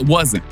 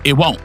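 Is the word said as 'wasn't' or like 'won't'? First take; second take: wasn't; won't. First: The word is said fully as 'wasn't', with s. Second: The word sounds like 'won't', with no s sound. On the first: This is the usual way of saying it. "Not it wasn't" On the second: This is a North Carolina way of saying it. "I like how you say, it won't"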